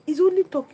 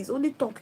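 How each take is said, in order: First: "only" louder and higher; only stressed. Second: Said in the usual way. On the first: Shown as a demonstration. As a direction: punch "only" hard.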